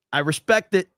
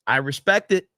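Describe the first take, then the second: No difference in how they are said.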